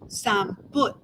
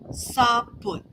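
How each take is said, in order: First: The word has an M and a U vowel. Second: The word has no M and a U vowel. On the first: "keep the M but change it the O to a U" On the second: "some people drop the M"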